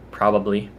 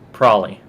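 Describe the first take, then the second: First: The word is said fully, with all syllables. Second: The word is heavily reduced and run together. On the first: The speaker is not in a hurry. "normal conversation, if I'm not really in a rush" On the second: The speaker is being totally lazy. "if I'm just totally lazy"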